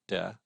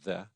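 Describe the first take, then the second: First: The word starts with a hard d sound. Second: The word starts with a soft th sound. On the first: The speaker calls it wrong. "not de" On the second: The speaker calls it right. "but the"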